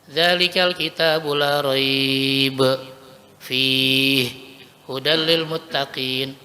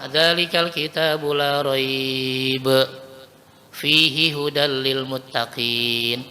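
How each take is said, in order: First: There are pauses after both raiba and fihi. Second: There is a pause after la raiba only.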